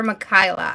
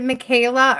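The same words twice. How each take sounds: First: "Michaela" pronounced muh-KAI-luh. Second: "Michaela" pronounced muh-KAY-luh. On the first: Host checks a viewer's name, Michaela as muh-KAI-luh. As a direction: say "Michaela" with an EYE sound in the middle. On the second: Host checks a viewer's name, Michaela as muh-KAY-luh. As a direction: say "Michaela" with a long AY in the middle. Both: Shown as a demonstration. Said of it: "I don't wanna ever say your name wrong".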